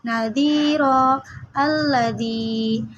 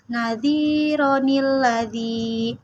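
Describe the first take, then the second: First: The two words are said without a linking n. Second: The words are linked by an inserted ni sound.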